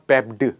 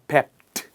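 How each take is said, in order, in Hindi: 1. इस अंत का उच्चारण d ध्वनि के साथ होता है। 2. इस अंत का उच्चारण t ध्वनि के साथ होता है। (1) "इट्स नॉट पेप्ड" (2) "सो पेप का पास्ट होगा पेप्ट"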